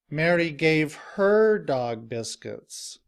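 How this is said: The stress is on her.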